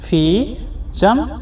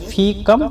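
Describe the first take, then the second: First: The second word begins with a ch sound. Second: The second word begins with a k sound. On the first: This form is used in some regions. "कितना को अरबिक में दो तरह से बुलाता है जगह जगह के हिसाब से" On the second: This form is used in other regions. "कम भी बोला जाता है"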